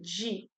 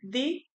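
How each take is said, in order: First: The d sounds like a 'dj' sound. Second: The d is a plain d sound.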